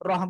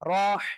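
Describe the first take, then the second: First: The h is a plain, relaxed breathy sound. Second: The h is breathed through a squeezed throat. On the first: The speaker calls it wrong. "রহ বললে ভুল" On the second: The speaker calls it right. "গলাটা চেপে মুখ দিয়ে হালকা বাতাস বের করে"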